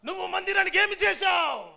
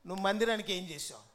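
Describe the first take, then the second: First: It is said in a grand, speechmaking style. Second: It is said in a plain, ordinary speaking voice.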